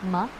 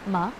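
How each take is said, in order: Both takes have the same delivery.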